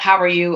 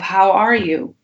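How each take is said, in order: First: It sounds like a quick, casual greeting. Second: It sounds like a sincere, caring question.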